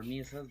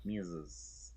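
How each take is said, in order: First: "misses" with hissed s sounds; "misses" said with a voiceless s ending; wrong pronunciation demo. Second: "misses" with a buzzing z sound; "misses" said lower, ending in z; correct pronunciation demo. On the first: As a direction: show the mistake in "misses", no buzz at the end. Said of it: "Nor misses". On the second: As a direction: model "misses" with a voiced, vibrating ending. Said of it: "but misses". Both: Shown as a demonstration.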